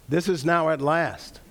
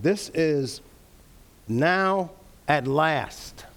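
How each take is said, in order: First: Said in the usual way. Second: Slow, drawn-out emphasis on every word; emphatic. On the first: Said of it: "perhaps an even better translation". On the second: Shown as a demonstration. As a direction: lean hard into each word of "This is now at last". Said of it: "it's more emphatic".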